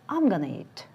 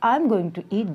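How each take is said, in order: First: Going to is reduced to gonna. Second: Going to is said in full.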